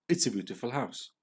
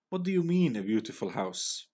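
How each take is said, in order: First: Said in the usual way. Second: Mock "beautiful" with disdain; scornful. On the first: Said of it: "T said". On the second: A narrator's reading. Blackie scoffing at T's word "beautiful", scornful. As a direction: scoff at the word "beautiful", pitch jumping up on "you". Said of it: "Blackie asked with scorn".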